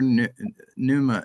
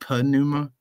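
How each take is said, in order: First: The word starts with an n sound. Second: The word starts with a pn sound. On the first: "Usually people don't say it" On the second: "it's actually like pneuma, right? There's a pi in it"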